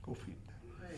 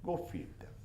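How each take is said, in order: First: Breathy whispered repeat, much softer; whispered echo. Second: Said in the usual way. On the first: Acted. The Prophet's request echoed back as a whisper. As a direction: let the words fade to a whisper.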